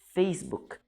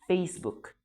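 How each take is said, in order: Both takes have the same delivery.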